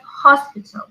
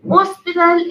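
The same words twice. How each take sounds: First: It is pronounced in an English way. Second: It is pronounced in a Spanish-style way. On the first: The speaker calls it right. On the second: The speaker calls it wrong.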